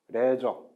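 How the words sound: It has a short e and a hard j sound. "우리나라 대부분의 사람들은 어떻게 발음을 할 것이냐면은 레저 이렇게 발음하겠죠"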